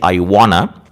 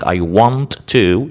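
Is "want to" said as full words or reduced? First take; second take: reduced; full. First: "Want to" is run together as "wanna". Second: Both words "want to" are said fully and separately. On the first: "the spoken way of saying I want to" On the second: "rather than saying I want to"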